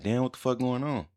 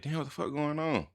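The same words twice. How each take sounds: First: High, bewildered retold cry; startled and much higher, at normal volume; the same puzzled outburst told a second time; confused exclamation. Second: High, bewildered retold outburst; startled, much higher and a touch softer; confused exclamation. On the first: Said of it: "I'm like". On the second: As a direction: someone who can't see why everyone went quiet. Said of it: "So I'm like".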